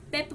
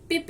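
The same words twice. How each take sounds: First: पेप with a clear e vowel, as it should sound; correct reading. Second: पिप with a short i sound, the mistaken way; wrong reading. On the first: Teacher gives the class the right reading, पेप with e sound. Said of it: "क्या बोलते हैं?". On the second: Teacher shows the class the wrong reading, पिप with short i. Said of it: "पिप नहीं बोलते हम". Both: Shown as a demonstration.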